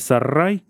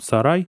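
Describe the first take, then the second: First: The r is a long rolled trill. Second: The r is a single quick tap. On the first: The speaker calls it wrong. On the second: The speaker calls it right.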